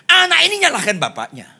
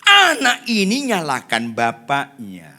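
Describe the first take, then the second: First: High, loud and fast declaration; quick forceful cry. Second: Loud, drawn-out, measured emphasis; slow emphatic repeat. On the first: Preacher making his point, quick and loud. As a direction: fire the whole line out at high pitch. First take of repeated point. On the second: Preacher driving the point home, slow and loud. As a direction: stretch every word to drive it home. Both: Real, not acted.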